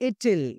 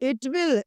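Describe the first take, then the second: First: The words are run together into a shortened form. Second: Both words are said fully and separately.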